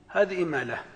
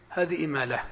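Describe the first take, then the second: No difference in how they are said.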